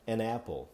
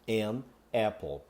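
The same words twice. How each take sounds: First: The two words run together as one. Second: The two words are said separately. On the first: "na fala natural a gente vai pronunciar an apple. Tá vendo como ele se junta?" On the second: "Eu posso falar de modo isolado"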